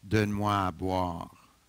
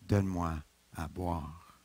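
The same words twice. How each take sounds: First: It is said in a commanding, authoritative tone. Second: It is said in a thirsty, pleading tone.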